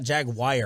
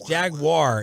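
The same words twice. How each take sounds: First: The second syllable does not sound like 'war'. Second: The second syllable sounds like 'war'. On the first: The speaker calls it wrong. "It's not" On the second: The speaker calls it right. "I think it's War"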